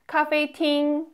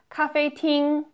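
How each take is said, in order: The two takes are said the same way.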